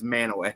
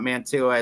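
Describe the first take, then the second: First: The name is said as 'Man-a-way'. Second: The name is said as 'Man-tu-a'. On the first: The speaker calls it right. "it's Manaway up here" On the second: The speaker calls it wrong. "It's not Mantua"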